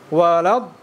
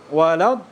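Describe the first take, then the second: The two takes are said the same way.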